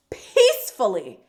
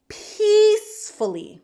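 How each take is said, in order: First: Said in the usual way. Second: Peacefully drawn out slow, high and loud; stress on peacefully. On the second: Shown as a demonstration. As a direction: lean hard on peacefully, stretching it. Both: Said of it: "I cannot stress this enough".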